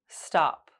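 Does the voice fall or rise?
fall. The pitch goes down.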